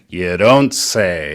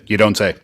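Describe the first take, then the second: First: It is said slowly in a sarcastic tone. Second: It is said in a plain, straight tone. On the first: The speaker calls it right. "천천히 비꼬듯이" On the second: The speaker calls it wrong. "You can't say it like that"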